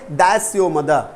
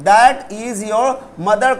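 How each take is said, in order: First: 'That is' is contracted into one syllable. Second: 'That is' is said as two full words.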